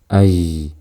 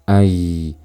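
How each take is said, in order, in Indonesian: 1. Nafas terdengar bersama suara. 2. Nafas terdengar bersama suara.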